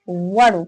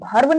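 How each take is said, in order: First: The word begins with a plain 'v' sound. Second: The word begins with a breathy 'bh' sound. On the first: The speaker calls it right. "इसे भर्व नहीं वर्ब पढ़िए।" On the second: The speaker calls it wrong. "इसे बहुत सारे व्यक्ति भर्व पढ़ते हैं।"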